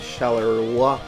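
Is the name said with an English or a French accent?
English. The name is said with an English accent. "I don't know if I'm saying that correctly"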